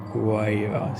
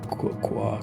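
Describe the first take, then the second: First: The word is read with English pronunciation. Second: The word is read with English pronunciation.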